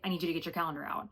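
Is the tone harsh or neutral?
neutral. It is said in a calm, neutral tone.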